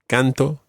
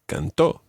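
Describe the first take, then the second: First: The stress is on the first syllable. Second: The stress is on the last syllable.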